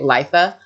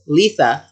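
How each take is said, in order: First: It does not sound like a lisped Lisa. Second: It sounds like Lisa said with a lisp. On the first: The speaker calls it wrong. "I've been saying it wrong" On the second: The speaker calls it right. "sounds like Lisa with a lisp"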